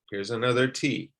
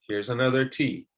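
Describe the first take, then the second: No difference in how they are said.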